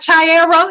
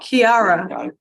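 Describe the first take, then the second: First: The name does not begin with a K sound. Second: The name begins with a K sound. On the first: The speaker calls it wrong. "so it's not Chiara" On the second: The speaker calls it right. "Kiara. Okay"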